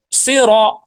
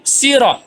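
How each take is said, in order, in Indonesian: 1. Diawali dengan bunyi s yang tebal dan berat. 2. Diawali dengan bunyi s yang tipis dan ringan. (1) "huruf shad yang aslinya" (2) "Sod dibaca sin"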